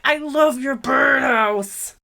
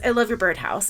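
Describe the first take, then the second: First: It is said in an overly excited voice. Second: It is said in a calm, normal voice.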